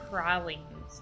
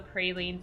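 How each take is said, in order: First: The word has the local New Orleans pronunciation. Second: The word has the speaker's usual, non-local pronunciation.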